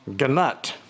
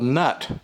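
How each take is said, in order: First: Both g and n are sounded, with a vowel between. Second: The word starts with an n sound, no g. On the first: "if you pronounce it the way it's spelled" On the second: "Maybe the G is silent"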